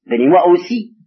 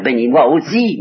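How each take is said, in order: First: Plus aigu et plus fort, une supplique qui se brise; cri suppliant. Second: Demande amère et appuyée, un peu plus haute; supplique amère. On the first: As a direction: implorer son père, presque crié. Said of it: "il ne demande même plus d'être le seul". (Ésaü implore son père, cri désespéré) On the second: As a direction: supplier avec force et amertume. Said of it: "avec beaucoup de force et d'amertume". (Ésaü supplie son père avec amertume) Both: Acted.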